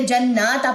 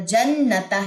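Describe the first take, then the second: First: جناتا with the nun vowel drawn long; wrong lengthened vowel. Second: جنتا with a short a, slow and careful; correct short vowel. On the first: Teacher showing the wrong reading جناتا, vowel stretched. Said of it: "اکثر لوگ کیا کرتے ہیں". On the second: Teacher giving the correct جنتا, slowly. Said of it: "جنتا ہے یہ". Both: Shown as a demonstration.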